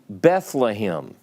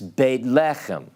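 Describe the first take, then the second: First: It uses the English pronunciation. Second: It uses the Hebrew pronunciation. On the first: "If I say to you Bethlehem" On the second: "properly pronounced in Hebrew"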